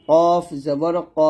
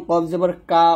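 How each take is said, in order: First: Slow কফ জবর ক, rounded heavy o; thick ko. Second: কা with an open aa, light and plain; thin kaa. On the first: Teacher leads repeat-after-me, slow thick ko. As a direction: draw it out, ending thick on ক. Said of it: "সুন্দরভাবে উচ্চারণটা করতে হবে". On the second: Teacher mimics a common mistake, thin kaa. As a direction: say কা as Bengali aa. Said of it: "এই প্রত্যেকটা উচ্চারণ কিন্তু ভুল". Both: Shown as a demonstration.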